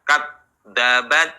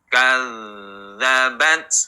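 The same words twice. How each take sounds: First: The 'dh' is cut off like a stopped t. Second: The 'dh' is a continuous flowing sound. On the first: The speaker calls it wrong. "Jangan mati T" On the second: The speaker calls it right. "Terdengar suara yang mengalir"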